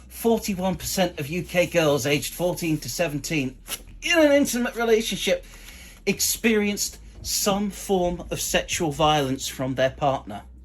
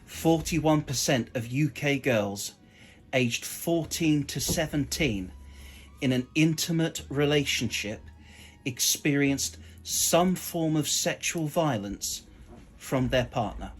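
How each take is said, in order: First: It is said with laughter in the voice. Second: It is said straight, without any laughter.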